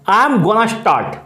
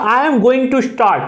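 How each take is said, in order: First: 'Going to' is reduced to one blended 'gonna'. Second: 'Going to' is said in full, two clear words.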